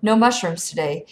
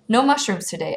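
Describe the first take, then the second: First: Said in the usual way. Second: Slightly higher character voice; mildly raised-pitch second voice. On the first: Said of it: "It was the same strange voice". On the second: A narrator's reading. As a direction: echo it a touch higher. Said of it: "higher voice".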